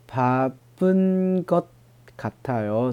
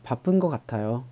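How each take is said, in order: First: Said slowly, with the final consonant of 것 heard. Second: Said quickly, with the final consonant of 것 dropped. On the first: "慢慢读的话" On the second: "读得快的情况下……好像没有一样的，直接就读成了"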